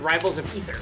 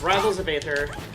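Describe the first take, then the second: First: The last word is said like 'ether'. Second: The last word is said the common way. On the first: This is one person's unusual way of saying the name. "who pronounces it Rivals of Ether" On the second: This is how nearly everyone says the name. "it's Rivals of Aether"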